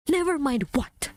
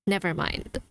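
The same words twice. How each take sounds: First: Higher, exasperated challenge; indignant retort. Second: Mock dismissal. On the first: Acted. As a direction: throw it back as a demand. Throws the dismissal back indignantly. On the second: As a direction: say it as a small, mimicked retreat. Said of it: "And then you just go like".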